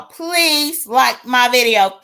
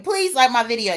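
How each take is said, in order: First: Slow, drawn-out plea in a lightly put-on voice; Claudiva voice. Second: Said in the usual way. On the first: Shown as a demonstration. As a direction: stretch out the request in a slight character voice. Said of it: "Thank you in my Claudiva voice". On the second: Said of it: "in my Claudiva voice".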